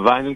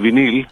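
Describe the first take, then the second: First: It is said with an English pronunciation, VY-nil. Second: It is said with a French pronunciation, vee-NEEL. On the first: "στα αγγλικά είναι vinyl" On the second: "στα γαλλικά είναι βινίλ"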